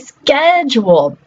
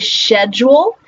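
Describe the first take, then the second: First: It is said with the modern pronunciation. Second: It is said with the older pronunciation. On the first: This is how the word is said today. "and now we say" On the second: This is how the word was said in the past. "We used to say"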